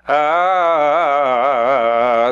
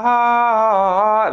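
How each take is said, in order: First: It is in a low chest voice. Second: It is in a high head voice.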